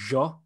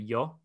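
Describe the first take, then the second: First: It is said in an Argentinian Spanish accent. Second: It is said in a standard Castilian Spanish accent. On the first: "the Argentinians will say yo" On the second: "when you refer to yourself, you say yo"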